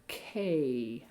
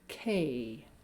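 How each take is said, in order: First: The vowel has a small pitch change. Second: The vowel has a small pitch change.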